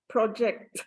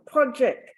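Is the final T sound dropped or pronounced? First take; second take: pronounced; dropped. First: The final T sound is clearly pronounced. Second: The final T sound is left off. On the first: The speaker calls it right. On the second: The speaker calls it wrong.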